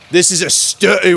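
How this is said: It is said in a put-on British accent.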